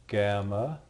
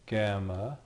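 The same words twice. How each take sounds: The two takes are said the same way.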